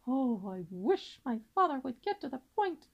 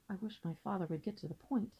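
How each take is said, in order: First: Nervous impatience. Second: Said softly, as a private wish; inward thought. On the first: Louis, tired of father's long speech, nervous and impatient. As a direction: sigh the Oh and press with growing impatience. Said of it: "was getting very nervous". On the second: Louis silently wishes as his father talks, quiet inward thought. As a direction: keep it small and under the breath. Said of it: "thought Louis". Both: A narrator's reading.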